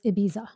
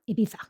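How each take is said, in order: First: The name is said the plain English way. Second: The name is said the Castilian Spanish way.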